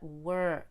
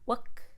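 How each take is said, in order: First: The vowel is long with a strong R sound. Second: The vowel is short with no R sound. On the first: The speaker calls it right. "pull your tongue backward on the E R and hold it longer" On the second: The speaker calls it wrong. "Not wook"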